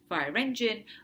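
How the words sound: The stress falls on the word engine. It sounds like a phrase, not a compound. The speaker calls it wrong. "with the stress on the second word"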